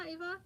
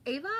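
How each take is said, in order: First: "Eva?" with a long E, EE-vuh, asked like a question; first guess at the name, "Eva?" said EE-vuh. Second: "Ava?" with an open A, AH-vuh, asked like a question; corrected guess at the name, "Ava?" said AH-vuh. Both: Shown as a demonstration. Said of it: "I'm sorry".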